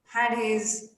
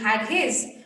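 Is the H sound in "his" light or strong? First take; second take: light; strong. First: The H sound in "his" is light and subtle. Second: The H sound in "his" is strongly pronounced. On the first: The speaker calls it right. "the H sound has to be a little subtle" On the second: The speaker calls it wrong. "instead of saying"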